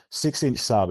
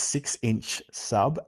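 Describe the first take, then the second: First: Said in the usual way. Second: Each word drawn out slowly; very slow, careful. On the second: Retold or imitated. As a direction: say "six-inch sub" slowly, word by word. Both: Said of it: "I kept screwing it up".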